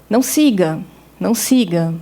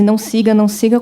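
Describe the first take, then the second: First: The two phrases are separated by a pause. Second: The two phrases run together without a pause. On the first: The speaker calls it wrong. "Em vez de ler" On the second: The speaker calls it right. "como um bloco único"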